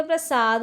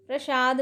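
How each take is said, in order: First: प्रसाद with a plain s, "prasad"; correct pronunciation. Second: प्रसाद said with sh, as "prashad"; wrong pronunciation. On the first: Teacher giving students the right form, प्रसाद as "prasad". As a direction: keep a clean s in प्रसाद. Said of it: "होता है". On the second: Teacher showing students the error, प्रसाद as "prashad". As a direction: turn the s of प्रसाद into sh. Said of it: "नहीं होता". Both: Shown as a demonstration.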